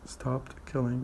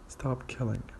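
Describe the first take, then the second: First: The t at the end of stopped is pronounced. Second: The t at the end of stopped is dropped.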